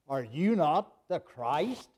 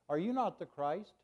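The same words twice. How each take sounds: First: It is said in a mocking, sarcastic tone. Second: It is said in a plain, flat reading tone. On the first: The speaker is insulting and mocking the listener. The speaker calls it right. "He was being sarcastic" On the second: The words are taken as a sincere question. The speaker calls it wrong. "we read it just pretty much like I said it"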